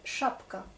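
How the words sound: It is said with a Russian pronunciation. "et nous, c'est chapka"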